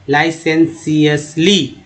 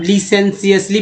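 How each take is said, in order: First: The first syllable is said like 'lie'. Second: The first syllable is said like 'lee'. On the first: The speaker calls it right. "यहाँ पर आई का इस्तेमाल हुआ है, तो लाई" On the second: The speaker calls it wrong. "लिसेंसियसली पढ़ेंगे गलत हो जाएगा"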